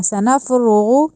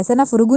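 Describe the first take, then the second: First: Slow سنفرغ with full heavy ra and ghain. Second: سنفرغ with thin ra and ghain; wrong way. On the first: Teacher showing the heavy tajweed letters. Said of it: "را کو پر کرنا ہے". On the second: Teacher showing the thin mistake. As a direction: say سنفرغ lightly, without heaviness. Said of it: "سنفرغ نہیں کہنا". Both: Shown as a demonstration.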